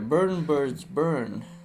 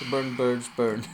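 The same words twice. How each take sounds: First: It is said at a normal speed. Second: It is said fast.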